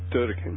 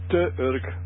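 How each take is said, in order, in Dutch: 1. De twee woorden worden samengevoegd tot één lettergreep. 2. De twee woorden worden apart gehouden, niet samengevoegd.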